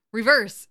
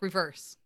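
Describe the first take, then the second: First: Much louder, insistent repeat of REVERSE; retold raised warning. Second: Said in the usual way. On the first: Dean warning Gary at the wheel, retold raised warning. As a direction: say REVERSE louder, as an urgent correction. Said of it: "And then Dean yells at him". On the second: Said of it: "Dean's like".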